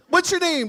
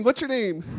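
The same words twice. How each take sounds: First: "What's" shouted high and loud; loud high version of the question; high mock demand. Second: Said in the usual way. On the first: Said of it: "repeat, first high and loud". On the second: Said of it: "repeat, calmer".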